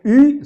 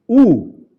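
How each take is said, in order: First: U fronted and rounded to ü; wrong vowel. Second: U as a long pure oo, louder; correct vowel. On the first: Teacher rules out the other sound, fronted ü. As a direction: say U as a French-style ü. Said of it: "ni tampoco". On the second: Teacher gives the right reading after the wrong ones, long firm oo. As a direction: hold U as a back oo, firmly. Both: Shown as a demonstration.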